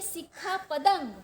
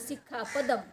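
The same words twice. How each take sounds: First: The words are pronounced clearly and carefully. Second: The words are pronounced loosely and imprecisely. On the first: The speaker calls it right. "हम बोलते हैं" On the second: The speaker calls it wrong. "आप बोलते हो"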